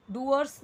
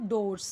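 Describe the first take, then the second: First: "doors" misread with the oo vowel of poor; mispronounced doors. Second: Said in the usual way. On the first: Shown as a demonstration. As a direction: say "doors" wrongly, as "doo-ers". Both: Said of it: "doors नहीं पढ़ेंगे इसे".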